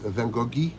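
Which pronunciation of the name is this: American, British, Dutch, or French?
French. The name is pronounced the French way. "in France, it's Van Goghi"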